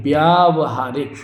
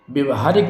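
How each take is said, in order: First: व्यावहारिक slowly, as "byaa-va-haarik"; long first aa. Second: व्यवहारिक as "bya-va-haarik"; short first vowel. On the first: Teacher correcting the word, slow व्यावहारिक with long "aa". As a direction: stretch the "vyaa" of व्यावहारिक. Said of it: "व्यावहारिक ये शुद्ध होगा". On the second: Teacher showing the mistake, व्यवहारिक with short "vya". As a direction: say व्यवहारिक with a short opening syllable. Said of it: "व्यवहारिक नहीं". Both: Shown as a demonstration.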